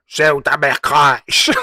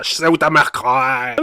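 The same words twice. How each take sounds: First: Slow drawl with a diphthong; mock rapper accent. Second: Slow diphthong drawl; mock rapper accent. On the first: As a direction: imitate his drawl, slowly. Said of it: "Il a fait une diphtongue comme ça". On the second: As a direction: drag the vowels slowly. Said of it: "une diphtongue comme ça".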